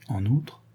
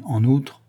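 First: "en outre" repeated softly with a questioning rise; soft, prompting "en outre"; questioning echo. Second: "En outre" lifted and left hanging; reluctant lead-in on "En outre", unfinished; hesitant. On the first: Woman urging Lupin to continue, questioning. Listener echoes, prompting him on. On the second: Lupin about to add bad news, hesitant. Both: A narrator's reading.

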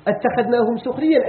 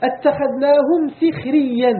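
First: سخريا with the sin said with u, suxriyyan; damma reading. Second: سخريا with the sin said with i, sixriyyan, slow and higher; kasra reading. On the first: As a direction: say سخريا as suxriyyan, rounded first vowel. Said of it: "حنا كنقراو بالضم". (نطق سخريا بضم السين) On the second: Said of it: "ويقرأه غيرنا". (نطق سخريا بكسر السين ببطء) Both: Shown as a demonstration.

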